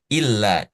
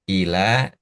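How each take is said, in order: First: The l is doubled and stressed. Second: The l is light, with no stress. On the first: It means except. "Kalau illa pakai tasdid, kita baca ada adat stressing" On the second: It means to or towards. "ila tanpa tanpa stressing, tanpa tekanan"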